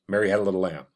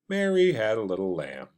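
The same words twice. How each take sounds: First: It is said quickly, as if hurried. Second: It is said slowly and casually.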